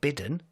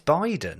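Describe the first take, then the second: First: The first vowel is a short 'i' sound. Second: The first vowel is a long 'eye' sound. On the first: The speaker calls it wrong. "not Bidden" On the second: The speaker calls it right. "It's Biden"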